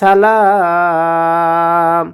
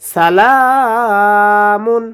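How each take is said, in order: First: The word ends on a consonant, ending dropped. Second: The word keeps its full ending and continues. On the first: The reader stops on this word. "অক্ফ করি তাহলে হবে সালাম" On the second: The reader continues without stopping. "অক্ফ না করি তাহলে হবে সালামুন হিয়া"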